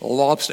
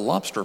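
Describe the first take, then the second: First: It is said in a Maine accent, r dropped. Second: It is said in a general accent, r sounded. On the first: The speaker sounds like a local. The speaker calls it right. "you want to sound like a local, you have to pronounce it as lobster" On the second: The speaker sounds like an outsider. The speaker calls it wrong. "they will know instantly you are not from around there"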